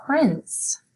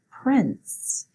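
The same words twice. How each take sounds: First: Prince said high with a falling tune; clear model word. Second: Prince said high again with a falling tune; repeat model word. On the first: Teacher modelling prince for pupils to repeat. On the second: Teacher repeating prince for pupils. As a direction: echo the word for the class. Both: Shown as a demonstration. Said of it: "You say it".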